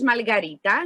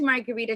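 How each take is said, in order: First: Margarita said the Spanish way with a tapped r, mar-ga-RI-ta. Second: Margarita said the English way, hard R, Mar-guh-REE-tuh; anglicized Margarita. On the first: Shown as a demonstration. Correcting a caller, saying her own name Margarita in Spanish. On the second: Retold or imitated. Caller getting her name wrong, saying Margarita in English. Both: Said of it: "It is Margarita".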